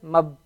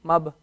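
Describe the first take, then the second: No difference in how they are said.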